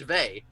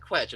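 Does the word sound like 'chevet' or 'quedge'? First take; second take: chevet; quedge. First: The word is pronounced like 'chevet'. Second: The word is pronounced like 'quedge'. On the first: This is the intended pronunciation. "It's meant to be pronounced chevet" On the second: This is how most people say it. "but everyone pronounces it quedge"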